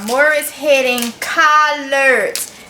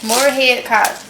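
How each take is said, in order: First: It is said slowly and carefully. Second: It is said quickly in a relaxed accent. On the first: "if I don't say it slow" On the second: "That's just my accent"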